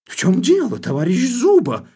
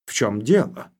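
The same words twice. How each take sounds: First: High, loud, furious cry; enraged shout. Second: Said in the usual way. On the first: Acted. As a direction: flare up and yell at him. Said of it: "мгновенно остервенев, вскричал".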